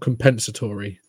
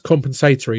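First: The word is said the American way. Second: The word is said the non-American way. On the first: The speaker calls it wrong. "I get really annoyed how Americans pronounce that word" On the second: The speaker calls it right. "It's compensatory"

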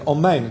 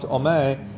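First: The final n sound is fully finished. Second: The final n sound is cut off. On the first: The speaker calls it right. "You must make sure to say omein" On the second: The speaker calls it wrong. "a cut off omein"

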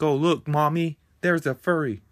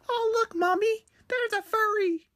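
First: It is said in the speaker's normal adult voice. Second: It is said in a put-on child's voice.

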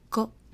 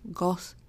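First: The word ends with a cut-off unreleased t stop. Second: The word ends with a released hissing s sound. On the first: The speaker calls it right. "it's pronounced as got" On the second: The speaker calls it wrong. "instead of it being pronounced as gos"

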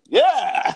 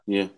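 First: It is said with excitement and feeling. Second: It is said flatly, without excitement.

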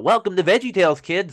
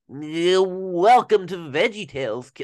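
First: The voice is bright, lively and energetic. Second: The voice is flat, low and weary. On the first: The character is glad to be there. The speaker calls it right. "some of the people really do have the pitch down, but they miss the energy in the voice" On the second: The character does not want to be there. The speaker calls it wrong. "Like he's suffering"

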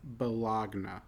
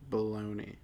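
First: The word is sounded out as it is spelled. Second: The word is said in its everyday spoken form. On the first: "I want you to sound out the word" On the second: "How do you actually pronounce it?"

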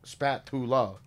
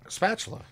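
First: The middle consonant is a plain 't' sound. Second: The middle consonant is a 'ch' sound. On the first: This is how the spelling reads. "so the phonetic would be spatula" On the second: This is how it is actually said. "But it's spatula"

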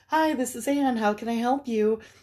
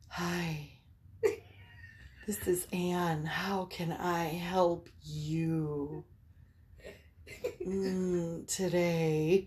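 First: The voice is plain, polite and professional. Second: The voice is soft, breathy and seductive. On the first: She switches instantly to her work greeting. "And I don't miss a beat" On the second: She is playing a phone sex operator. "I very intentionally do my phone sex voice"

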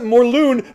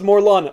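First: The last syllable does not rhyme with gun. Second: The last syllable rhymes with gun. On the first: "I used to pronounce it Morlun" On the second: "it's pronounced Morlun, like in Gun"

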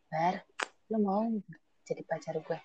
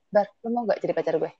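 First: It sounds tender and romantic. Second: It sounds casual and unromantic.

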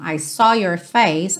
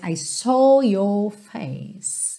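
First: It is said in an American accent. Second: It is said with fuller, non-American vowels. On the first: "A gente falaria no inglês americano" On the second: "Essas palavras são um pouco mais cheias do que no inglês americano"

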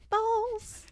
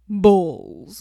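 First: It is said in a high voice. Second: It is said in a deep voice.

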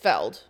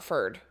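First: The word is said with an L sound. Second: The word is said with an R sound. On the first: The speaker calls it right. "it's Feld" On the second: The speaker calls it wrong. "not Ferd"

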